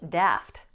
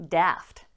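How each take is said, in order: Both takes have the same delivery.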